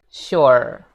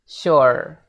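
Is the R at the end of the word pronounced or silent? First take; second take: pronounced; pronounced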